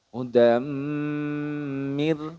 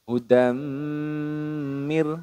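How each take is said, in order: No difference in how they are said.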